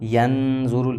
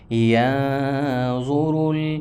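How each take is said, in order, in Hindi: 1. n को पूरा और साफ़ बोला जाता है। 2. n को नासिका ध्वनि के रूप में छिपा दिया जाता है। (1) "ऐसे नहीं पढ़ेंगे" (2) "नून को छुपा लिया जाएगा"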